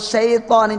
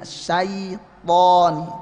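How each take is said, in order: First: The first vowel is flattened to an e sound. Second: The first vowel is a full ai diphthong. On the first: The speaker calls it wrong. "Enggak boleh syaitani jadi e" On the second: The speaker calls it right. "Syai ya, ai sempurna"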